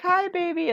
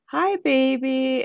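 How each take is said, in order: First: Much higher, sweet hello to a newborn; baby talk greeting. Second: Slow, higher, gentle hello to a newborn; tender greeting. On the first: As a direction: coo at the baby. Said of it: "I was like". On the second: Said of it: "and she goes". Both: Retold or imitated.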